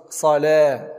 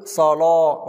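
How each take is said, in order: First: صلاة with a thin l and fronted a; wrong light laam. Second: صلاة with a full, dark l and a; heavy laam. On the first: Teacher shows the mistake, thin laam in صلاة. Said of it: "ولا نقول". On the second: Teacher models correct tafkheem, heavy laam in صلاة. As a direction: say صلاة with the back of the tongue raised. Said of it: "تفخيم حرف اللام هنا". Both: Shown as a demonstration.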